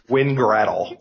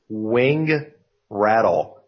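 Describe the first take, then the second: First: The split falls after win, before grattle. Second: The split falls after wing, before rattle. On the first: The speaker calls it wrong. "not Win, Grattle" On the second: The speaker calls it right. "it has wings that rattle"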